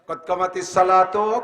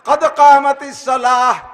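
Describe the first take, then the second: First: It starts 'kot kamati' and ends with 'salato'. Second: It starts 'qad qamatis' and ends with 'salah'. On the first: The speaker calls it wrong. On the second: The speaker calls it right.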